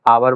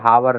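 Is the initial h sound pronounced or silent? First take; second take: silent; pronounced. First: The word begins directly with a vowel sound. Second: The word begins with an audible h sound. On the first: The speaker calls it right. "आवर बोला जाता है" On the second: The speaker calls it wrong. "हावर नहीं"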